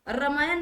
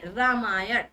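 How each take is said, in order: First: रामायण ending in a plain न; dental न ending. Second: रामायण lower, curling into a retroflex ण; retroflex ण ending. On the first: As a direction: say रामायण with न instead of retroflex ण. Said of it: "नहीं". (रामायण के अंत में सादा न) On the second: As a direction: end रामायण firmly on ण, tongue curled back. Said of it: "रामायण नहीं". (रामायण के अंत में मूर्धन्य ण) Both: Shown as a demonstration.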